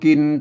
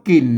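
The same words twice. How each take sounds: First: It is pronounced the Standard Thai way. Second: It is pronounced the Northern Thai way. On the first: The speaker calls it wrong. "ไม่ใช่อ่านว่ากินตามภาษาไทยนะ" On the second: The speaker calls it right. "อ่านว่ากินนะครับ"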